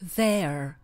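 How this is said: It is said with an American accent.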